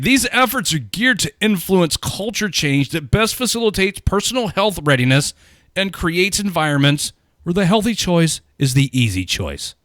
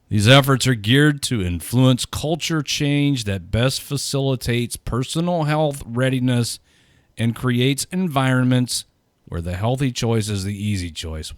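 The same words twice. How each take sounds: First: It is read with exaggerated feeling. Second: It is read flatly, without feeling.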